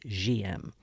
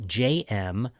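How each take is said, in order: First: The letters are pronounced the French way. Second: The letters are pronounced the English way. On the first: "if you were saying in the proper French, it would be G M" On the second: "us gringos, again, might know it as rum J M"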